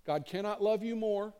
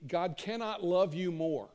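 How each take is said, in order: First: Higher, stress on love; preacher's rising restatement; raised emphatic repeat. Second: Slow, each word weighted, stress on love; preacher's measured declaration; slow emphatic statement. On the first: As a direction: lift the pitch and punch "love" in "God cannot love you more". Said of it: "You wanna know something God can't do?". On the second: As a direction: lay down "God cannot love you more" slowly, leaning on "love". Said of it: "you'll hear me say this". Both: Shown as a demonstration.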